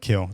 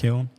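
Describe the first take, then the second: First: The word ends without any n sound. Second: The word ends with an audible n sound. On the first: The speaker calls it right. "Just leave the N off" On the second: The speaker calls it wrong. "I say it wrong"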